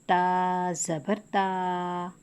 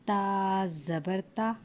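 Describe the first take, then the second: First: The final vowel is drawn out long. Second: The final vowel has moderate, natural length. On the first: The speaker calls it wrong. "खींचने पे" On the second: The speaker calls it right. "बेहतर तरीका है"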